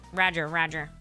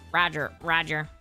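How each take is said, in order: First: It is said in a robotic droid voice. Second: The same.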